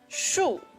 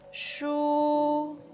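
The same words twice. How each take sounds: First: The pitch falls sharply from high to low. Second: The pitch stays high and level. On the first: "This is the fourth tone. It's a falling tone" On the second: "It's high and flat"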